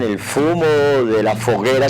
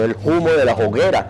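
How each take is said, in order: First: Humo and hoguera start with an f sound. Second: Humo and hoguera start with an h sound. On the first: This is how the rest of Spain said it. "se pronunciaba la F" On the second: This is how the people of Castile said it. "no pronunciaban la F sino como una H"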